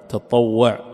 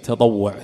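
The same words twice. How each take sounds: First: The t and w sounds are held doubled. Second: The t and w sounds are short single. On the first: "بالشد على الطاء وعلى الواو" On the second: "ويصح بالتخفيف"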